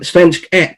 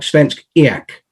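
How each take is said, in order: First: The last word has a short 'eck' vowel. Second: The last word has a long 'eek' vowel. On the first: The speaker calls it wrong. "which I think I've called Svensk Ek fifteen times this evening" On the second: The speaker calls it right. "but it's actually more like Svensk Eak"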